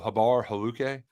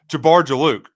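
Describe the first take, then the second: First: Each name begins with no J sound. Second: Each name begins with a J sound.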